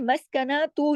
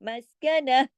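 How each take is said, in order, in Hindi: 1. यह शब्द t की आवाज़ और स्वर से खत्म होता है। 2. यह शब्द नरम h की आवाज़ से खत्म होता है। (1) "मस्कनातु लिखा है" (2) "ऐसे हो जाएगा, हा की आवाज़ आएगी"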